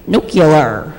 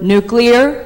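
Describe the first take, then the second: First: The ending is pronounced 'cular', as in nucular. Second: The ending is pronounced 'clear', as in nuclear. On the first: The speaker calls it wrong. "he says it like nuclear. That's not how you say it" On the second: The speaker calls it right. "say the word nuclear correctly"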